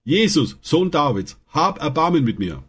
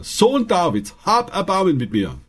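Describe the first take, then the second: First: Mäßig gehobener Ruf um Erbarmen; ruft laut. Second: Deutlich höherer, drängender Ruf; noch lauter gerufen. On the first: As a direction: ruf es dem Vorbeigehenden zu. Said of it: "rief er laut". (blinder Bettler ruft Jesus mit gehobener Stimme an) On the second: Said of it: "rief er nur noch lauter". (Bettler ruft trotz Schweigegebot höher und drängender) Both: A narrator's reading.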